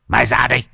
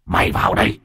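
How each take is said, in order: First: Higher-pitched, brash demand; angry challenge. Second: Rough, growled dare; menacing ghost voice. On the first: Helper at the door challenges the possessed man, brash and angry. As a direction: dare him out with bluster. Helper dares ghost to come out. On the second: Possessed man inside dares the helper, menacing growl. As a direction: rasp it as a threat. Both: A narrator's reading.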